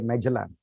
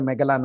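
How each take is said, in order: First: It is said in an American accent. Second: It is said in a non-American accent. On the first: "Americans say Magellan" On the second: "We say Magellan"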